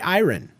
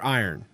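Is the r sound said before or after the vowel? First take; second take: unusual place; usual place. First: The r is put in an unusual place. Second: The r is in its usual place. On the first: The speaker calls it wrong. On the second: The speaker calls it right.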